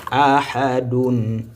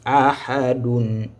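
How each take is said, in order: Both takes have the same delivery.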